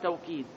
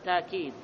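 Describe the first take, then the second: First: A w sound follows the first consonant. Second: A long a vowel follows the first consonant. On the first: "يقرأ بالواو توكيد" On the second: "ويقرأ بالألف تأكيد"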